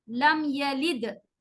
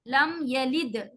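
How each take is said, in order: Both takes have the same delivery.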